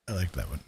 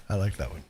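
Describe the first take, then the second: No difference in how they are said.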